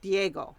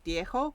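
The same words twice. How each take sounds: First: The 'g' sound is hard. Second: The 'g' sound is soft. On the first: "You get like a harder G" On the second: "they have softer G's like Diego"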